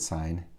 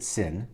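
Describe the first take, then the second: First: It has a long vowel, rhyming with 'line'. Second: It has a short vowel, rhyming with 'pin'. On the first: The speaker calls it right. "I'll pronounce it sine" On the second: The speaker calls it wrong. "don't pronounce it sin"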